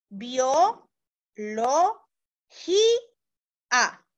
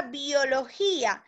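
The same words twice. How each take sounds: First: "bio, lo, ji, a" with pauses between syllables, a little slower; deliberate syllable-by-syllable teacher demo; split into syllables. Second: Said in the usual way. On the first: Shown as a demonstration. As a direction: break "biología" into its syllables for the students. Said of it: "a la hora de separar esa palabrita en sílaba, yo diría". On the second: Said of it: "a la hora de separar esa palabrita en sílaba".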